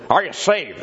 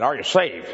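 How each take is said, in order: First: Repeating the preacher's question with more force; Fuller's preaching voice, pushed. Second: A light impression of the old preacher's voice, blunt question; mimicking the preacher's blunt question; Fuller's preaching voice. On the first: Retold or imitated. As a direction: hammer "Are" like a pulpit challenge. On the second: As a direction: ask it flat out like a radio preacher. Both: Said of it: "That's the way he talked".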